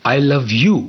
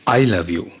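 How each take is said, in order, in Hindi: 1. बलाघात शब्द you पर है। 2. बलाघात शब्द I पर है। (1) "not him or her" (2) "अगर मैं आई पर एम्फसाइज करता हूँ"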